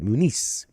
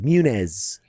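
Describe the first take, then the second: First: The name is said with a Spanish pronunciation. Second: The name is said with an anglicized pronunciation. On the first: This is how Spanish speakers say the name. "the Spanish people always called it Muniz" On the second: This is how the name's bearer says it himself. "but he says Munez"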